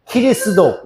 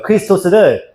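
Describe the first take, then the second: First: 키리스도 with ki for k and 도 for 토스; Japanese pronunciation. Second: Said in the usual way. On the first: Shown as a demonstration. Teacher contrasting Japanese with Greek, 키리스도 ending in do. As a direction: say 키리스도 as ki-ri-su-do, no final s. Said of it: "이렇게 읽는다고". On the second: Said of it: "크리스토스를 키리스도 이렇게 읽는다고".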